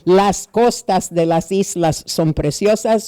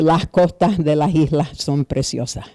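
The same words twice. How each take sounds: First: Standard Spanish with clear hissed final s sounds. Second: Puerto Rican accent, final s sounds become h.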